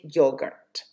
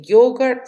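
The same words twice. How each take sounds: First: "yogurt" with a reduced second syllable; second variant of "yogurt", ending in an r-coloured vowel; other pronunciation variant. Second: "yogurt" with a more open second syllable; first variant of "yogurt", ending in an open vowel; one pronunciation variant. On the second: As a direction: say "yogurt" ending closer to "gart". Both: Shown as a demonstration. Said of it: "some people say yogurt".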